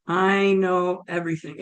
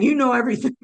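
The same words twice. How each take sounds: First: Lightly imitated God, measured; a hint of a calm, all-knowing God; God's voice. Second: Said in the usual way. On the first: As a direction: state it evenly, as God might. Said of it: "And it was like". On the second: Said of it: "As I'm saying".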